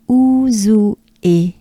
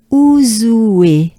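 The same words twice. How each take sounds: First: Ouzoue in separate parts, "ou-zou-é"; drawn-out ouzoue with é set apart; unlinked syllables. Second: Ouzoue run together as "ou-zoué"; louder Ouzoue gliding into oué; linked syllables. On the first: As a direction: ouzoue syllable by syllable, not linked. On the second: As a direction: link Ouzoue with no break before é. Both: Shown as a demonstration. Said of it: "we try to link it together".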